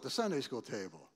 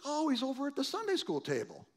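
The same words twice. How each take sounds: First: Said in the usual way. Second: Mocking. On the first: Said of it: "'Cause that's what they called it". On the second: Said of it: "and it was like".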